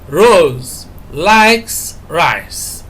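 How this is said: The word likes is stressed. She likes it rather than hates it. "we are stressing likes"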